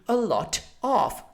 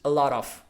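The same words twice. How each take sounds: First: The T is pronounced clearly and crisply. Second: The T is soft, blending smoothly into 'of'. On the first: "the right proper British pronunciation would be a lot of" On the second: "You have to pronounce it like this"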